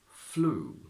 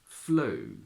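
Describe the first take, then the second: First: The oo is a pure long vowel. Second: The oo becomes an oh-like diphthong.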